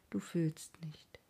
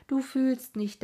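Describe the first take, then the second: First: Hushed. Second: Higher and louder repeat, stress on du; emphatic outburst. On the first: Narrator brooding on the madman, hushed and slow. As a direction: say it slowly under the breath. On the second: Narrator crying out against the madman's fate, loud. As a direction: repeat it as an anguished burst. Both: A narrator's reading.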